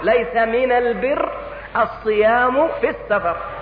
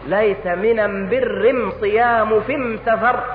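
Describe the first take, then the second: First: The article is pronounced with an l sound. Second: The article is pronounced with an m sound. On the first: This is the standard wording. The speaker calls it right. "هكذا قال صلى الله عليه وسلم" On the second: This is the Yemeni dialect form. The speaker calls it wrong. "نطق هذا الحديث بلغة هؤلاء القوم"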